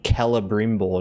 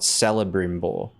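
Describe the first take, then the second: First: The name begins with a hard K sound. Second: The name begins with a soft S sound. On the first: The speaker calls it right. "C's are normally pronounced like as a K in Elvish" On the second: The speaker calls it wrong.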